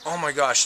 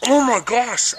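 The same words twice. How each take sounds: First: Said in the usual way. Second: Much higher, louder oh my gosh; horrified son exclaiming; shocked gasp. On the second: Retold or imitated. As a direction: blurt it out in horror. Son sees smoke from mouth.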